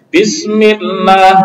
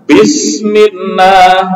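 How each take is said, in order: First: The m and its vowel sound light and thin. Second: The m and its vowel sound heavy and thick. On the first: The speaker calls it right. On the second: The speaker calls it wrong.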